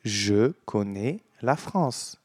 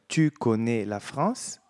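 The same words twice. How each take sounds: First: "Je connais la France." slowly, same sound for "connais"; slow model answer. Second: "Tu connais la France?" slowly, "tu" lifted; slow model question. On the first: Teacher shows the matching answer slowly. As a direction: echo the verb sound, slowly. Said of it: "você responde". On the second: Teacher models the question to copy. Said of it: "A pronúncia do verbo". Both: Shown as a demonstration.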